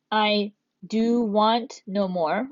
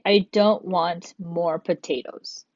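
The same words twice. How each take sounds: First: Slow, tentative "I do want no more"; testing an awkward version slowly; slow trial reading. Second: Slow, clear "I don't want more potatoes"; teacher modelling the better phrasing; slow correct version. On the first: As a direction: try the phrase out slowly. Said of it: "it would make more sense". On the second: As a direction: model the right sentence slowly. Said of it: "it would make more sense if we say". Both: Shown as a demonstration.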